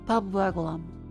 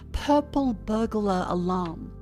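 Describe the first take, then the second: First: The phrase is said quickly with words run together. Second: The phrase is said slowly and carefully. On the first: "too casual of a movement" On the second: "if I slow down and say"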